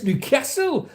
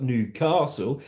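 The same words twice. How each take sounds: First: Newcastle with a short "a", pitched high; Geordie pronunciation. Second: Said in the usual way. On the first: Shown as a demonstration. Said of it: "not Newcastle. It's Newcastle". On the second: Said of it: "not Newcastle".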